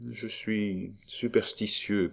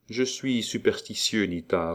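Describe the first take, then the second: First: Slow, soft, musing delivery; hushed and thoughtful, drawn out; pensive. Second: Softly pleading, understated; mild, tender entreaty; gentle, almost pleading. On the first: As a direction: muse it slowly, half to oneself. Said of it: "poursuivit Roland d'un air pensif". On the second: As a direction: plead gently without pushing. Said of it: "d'une voix douce et presque suppliante". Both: A narrator's reading.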